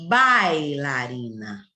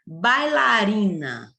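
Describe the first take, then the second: First: Bailarina, very slow and lower; weak I. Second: Bailarina, slow, syllables drawn out; strong A. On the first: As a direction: drag out bailarina so the I fades. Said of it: "O I, fraquinho". (bailarina bem lenta, I fraquinho) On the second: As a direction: stretch Bailarina, leaning on the A. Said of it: "o A, ó, ba, sai forte". (Bailarina devagar, A forte) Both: Shown as a demonstration.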